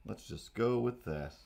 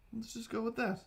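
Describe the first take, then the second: First: Said in the usual way. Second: High squeaky take; a high squeaky voice for the first take; high squeak. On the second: Shown as a demonstration.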